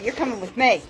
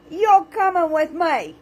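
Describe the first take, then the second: First: Said in the usual way. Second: Higher, louder and slower, YOU'RE hammed up; hammed-up threat; playful mock menace. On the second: Shown as a demonstration. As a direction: tease them like you're dragging them along.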